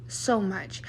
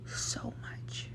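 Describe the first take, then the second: First: Said in the usual way. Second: Barely audible whisper on so much. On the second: Retold or imitated. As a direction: let it fade into a whisper. Quoted retort to nosy strangers.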